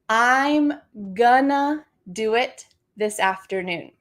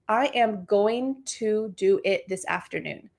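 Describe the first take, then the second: First: The words are contracted and reduced to 'gonna'. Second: Every word is pronounced fully and clearly. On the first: "let's use this reduction" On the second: "we can say it really clearly"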